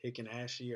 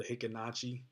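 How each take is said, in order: First: Self-correcting, swap the ch for sh in Hikinashi; corrected second try. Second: Hikinachi said with a "ch" sound, hi-ki-NA-chi; tentative first try at Hikinachi, ch as in chair; first unsure try. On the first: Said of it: "or however you say it". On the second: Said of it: "not very well, good at pronouncing this". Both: Real, not acted.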